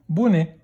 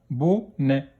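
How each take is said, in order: First: Said in the usual way. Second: "Bonnet" split into bo, nè; a gap inside "Bonnet"; syllable by syllable. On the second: Shown as a demonstration. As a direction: sound out "Bonnet" in two beats. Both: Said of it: "dans quelle syllabe".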